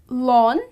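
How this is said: It is said with an American pronunciation. "the Americans pronounce it as"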